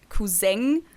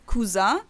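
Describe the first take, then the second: First: It is pronounced the German way. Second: It is pronounced the French way. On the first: "other people say like cousin" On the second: "some people pronounce it more like French"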